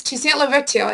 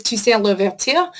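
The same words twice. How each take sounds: First: Said in the usual way. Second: Toussaint Louverture in a French accent, tusan luvertur. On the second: Shown as a demonstration. Teacher shows the class the name, in a French accent. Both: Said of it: "my French accent game is on point".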